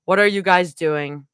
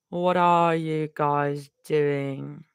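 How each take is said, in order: First: Said in the usual way. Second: Slow, lower drawl; slow put-on vocal stim; drawn-out stim. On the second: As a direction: stretch every word out in a put-on voice. Repeats line as vocal stim.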